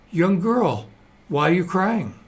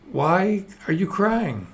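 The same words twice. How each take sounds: First: Higher-pitched, lightly acted question; concerned questioner. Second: Slow, higher-pitched acted question; slow, exaggerated joke-character asking; drawn-out questioning. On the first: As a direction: ask the crying girl, voice lifted. Man questions crying girl in joke. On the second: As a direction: stretch out the question, voice lifted. Man asks crying girl a second time.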